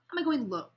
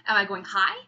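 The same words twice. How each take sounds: First: Falling down on LOW; low pitch demo. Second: Rising up high on HIGH; high pitch demo. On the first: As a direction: drop the word "low" down in pitch. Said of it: "pitch refers to". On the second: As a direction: lift the word "high" up in pitch, louder. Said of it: "So pitch refers to, am I going high". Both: Shown as a demonstration.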